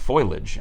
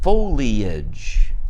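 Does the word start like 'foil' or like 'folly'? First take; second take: foil; folly. First: The word starts with the sound of 'foil'. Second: The word starts with the sound of 'folly'. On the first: The speaker calls it wrong. "she called it foliage" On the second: The speaker calls it right. "Like no, that's not it. It's foliage"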